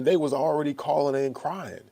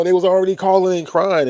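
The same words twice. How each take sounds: First: Said in the usual way. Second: Raised, much higher and louder retelling; exasperated, loud restatement; louder, emphatic repeat. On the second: Real, not acted. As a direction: hammer the point home, loud.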